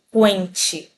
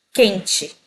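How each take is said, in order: First: Quente wrongly as "qu-ente", with a w glide; U sounded. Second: Said in the usual way. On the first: Shown as a demonstration. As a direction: pronounce the silent U in quente. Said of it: "Eu não falo quente". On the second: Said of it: "eu falo quente".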